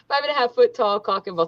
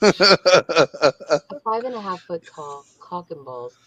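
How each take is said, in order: First: It is read in a plain, ordinary way. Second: It is read in a slow, sensual way.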